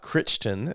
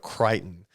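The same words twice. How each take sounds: First: It is said the way outsiders say it. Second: It is said the way locals say it. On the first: This is how many outsiders say it. The speaker calls it wrong. "not Crichton, as I've heard many people say" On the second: This is how people from the city say it. The speaker calls it right. "Crichton, not Crichton"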